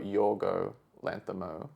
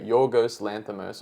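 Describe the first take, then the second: First: Both words end without any S sound. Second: Both words end with an audible S sound.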